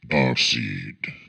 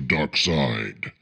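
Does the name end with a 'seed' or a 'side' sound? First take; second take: seed; side. First: The name ends with a 'seed' sound. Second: The name ends with a 'side' sound. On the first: The speaker calls it right. "I am Darkseid" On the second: The speaker calls it wrong. "I mispronounced my name on purpose"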